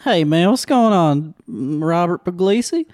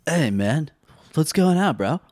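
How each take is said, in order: First: Higher-pitched put-on Southern accent. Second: Lightly voiced surfer dude; a hint of a laid-back surfer bro. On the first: Shown as a demonstration. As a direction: greet them in a Southern accent. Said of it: "The Southern accent". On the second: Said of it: "Surfer Bro".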